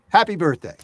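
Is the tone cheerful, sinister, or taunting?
cheerful. It sounds cheerful and friendly.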